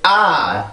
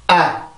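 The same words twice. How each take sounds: First: The vowel is stressed by raising the pitch. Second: The vowel is stressed by a tense throat. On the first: The speaker calls it wrong. "소리를 이렇게 아 이렇게 올리는 게 아니라" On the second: The speaker calls it right. "성대를 긴장을 시켜주면 돼요"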